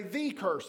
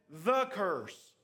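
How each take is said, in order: First: "the" said as "thee" before curse; emphatic thee. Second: Said in the usual way. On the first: Shown as a demonstration. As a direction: stress "the", pronounced thee, long ee. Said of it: "if you want to emphasize that word, sometimes it's easier to say". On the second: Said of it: "Or if you want to emphasize that word".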